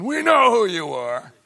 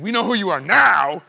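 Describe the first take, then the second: First: High, loud demons' cry; we know who you are, stress on know; mock demon shout. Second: We know who you are now with now punched and falling; loud, high demon line ending on now; stress on now. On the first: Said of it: "without demons going". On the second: Retold or imitated. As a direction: hit the word now hard. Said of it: "What they ought to be saying is".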